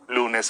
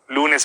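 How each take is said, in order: First: The words are spoken at a low pitch. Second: The words are spoken at a medium pitch. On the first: "Luego en tono bajo" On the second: "Luego en tono medio"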